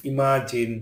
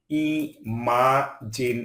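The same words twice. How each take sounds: First: Said in the usual way. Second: "imagine" in three long, separate syllables; split syllables. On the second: Shown as a demonstration. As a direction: pause between the syllables of "imagine". Word split by syllable, then whole.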